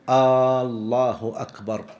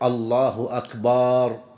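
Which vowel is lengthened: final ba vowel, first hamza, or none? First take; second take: first hamza; final ba vowel. First: The opening hamza vowel is drawn out. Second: The vowel after the b is drawn out. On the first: It turns the statement into a question. "أن لا يمد الهمزة" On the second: The word becomes a plural meaning drums. "أن لا يمد الباء في أكبر"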